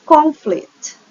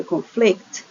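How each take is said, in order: First: "Conflict" stressed on the first syllable, CON-flict, high then falling. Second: "conflict" stressed on the second syllable, con-FLICT. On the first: Teacher contrasting two word classes, "Conflict" stressed on first syllable. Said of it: "is different than conflict". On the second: Teacher contrasting two word classes, "conflict" stressed on second syllable. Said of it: "the stress falls in different". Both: Shown as a demonstration.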